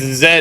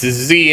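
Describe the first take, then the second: First: The letter is said the British way. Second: The letter is said the American way. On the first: "it's Z in British English" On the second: "it's Z in American English"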